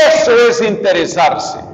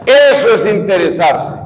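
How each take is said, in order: Both takes have the same delivery.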